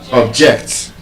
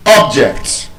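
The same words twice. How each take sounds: First: "object" as ob-JECT, second syllable stressed; weak ob-, firm JECT in "object"; verb stress. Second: "Object" as OB-ject, first syllable stressed; noun stress. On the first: Teacher giving word pairs, second-syllable stress on "object". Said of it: "stressed on the second syllable". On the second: Teacher giving word pairs, first-syllable stress on "Object". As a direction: hit OB in "Object". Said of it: "stressed on the first syllable". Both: Shown as a demonstration.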